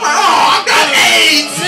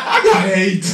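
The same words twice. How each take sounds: First: High, loud, slow panicked yell; panicked shout. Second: Said in the usual way. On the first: Retold or imitated. Comic sneezed on by foaming man, panicked yell. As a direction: scream it in mock horror.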